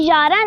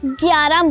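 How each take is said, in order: First: The word begins with a plain y sound. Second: The word begins with a g sound. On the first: The speaker calls it wrong. "ये यारह नहीं है" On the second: The speaker calls it right. "Urdu में हम लोग इस हिंसे को ग्यारह बोलेंगे"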